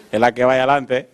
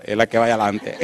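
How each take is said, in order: First: Said in the usual way. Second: Words spilling through a laugh; can barely get it out for laughing. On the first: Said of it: "repeats the punchline". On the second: Retold or imitated. Preacher retelling the joke on the street, laughing. Pointing men to the woman.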